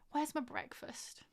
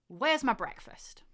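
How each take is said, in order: First: It is said in a begging tone. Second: It is said in an accusing tone.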